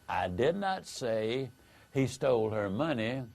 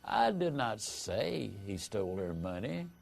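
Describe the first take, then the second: First: No word is stressed; the delivery is flat. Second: The stress falls on the word I. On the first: It is a plain statement of fact. "said with no inflection, it comes across as a statement of fact" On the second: Someone else said it. "implies the statement was said but by someone else"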